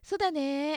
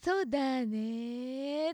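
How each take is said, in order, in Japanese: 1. 'ne'は少しだけ上がります。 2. 'ne'は一度下がってから、強く上がります。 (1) "上がり方がそれほど極端じゃなくて" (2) "一度下に下がって、そうだねって上がってくる"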